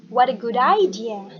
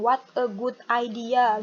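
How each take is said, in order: First: "what a good idea" run together, loud; linked words. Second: "What a good idea" word by word, Indonesian accent; unlinked words in a heavy Indonesian accent; too Indonesian. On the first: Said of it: "Digabung aja". ("what a good idea" digabung tanpa jeda) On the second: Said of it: "too Indonesian, terlalu Indonesia banget". (logat Indonesia banget, kata demi kata) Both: Shown as a demonstration.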